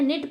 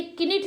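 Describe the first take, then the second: First: निट as "nit", starting on N; silent K. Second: किनिट with K sounded, "ki-nit"; wrong pronunciation. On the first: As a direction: leave the K out of निट. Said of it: "निट पढ़ते हैं". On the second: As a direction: add "ki" before the N in किनिट. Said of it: "नहीं पढ़ते हैं". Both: Shown as a demonstration.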